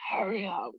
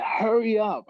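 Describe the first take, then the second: First: Retold breathless plea. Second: High, loud retold cry; urgent breathless plea. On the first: Choking trainee to man ahead, strained retold plea. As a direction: repeat it pitched up, as if short of air. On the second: Choking trainee to man ahead, urgent mock cry. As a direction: call it out urgently, pitched up. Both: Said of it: "'cause I couldn't breathe".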